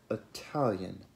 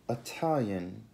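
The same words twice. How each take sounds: The two takes are said the same way.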